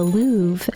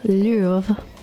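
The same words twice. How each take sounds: First: The word has an American pronunciation. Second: The word has a French pronunciation.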